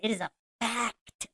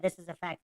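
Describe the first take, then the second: First: The word fact is said with strong conviction. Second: The word fact is said casually, glossed over.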